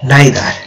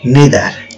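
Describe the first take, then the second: First: The first vowel is an 'eye' sound. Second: The first vowel is an 'ee' sound. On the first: "উচ্চারণ কিন্তু দুটোই ঠিক" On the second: "উচ্চারণ কিন্তু দুটোই ঠিক"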